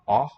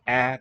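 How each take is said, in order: First: The vowel is a dark, backed ah. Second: The vowel is a light, fronted a. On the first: "dark ah" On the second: "light a"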